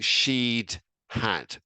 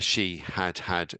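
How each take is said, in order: First: The first two words are contracted together. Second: Each word is said fully and separately. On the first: The speaker calls it wrong. "we could, of course, contract it" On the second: The speaker calls it right. "to say each word clearly"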